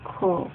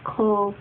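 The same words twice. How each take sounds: No difference in how they are said.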